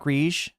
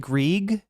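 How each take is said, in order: First: The name is said with a French-style sound. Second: The name is said without a French-style sound. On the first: The speaker calls it wrong. "I'm pronouncing it French" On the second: The speaker calls it right. "It's it's actually Grieg"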